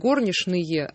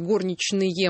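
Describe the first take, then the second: First: It is said with old Moscow pronunciation. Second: It is said with standard pronunciation.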